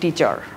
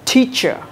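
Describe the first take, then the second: First: The t is said the Bengali way. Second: The t is said the English way. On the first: The speaker calls it wrong. "আমরা বলি টিচার" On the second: The speaker calls it right. "উচ্চারণটা কি হবে দেখো"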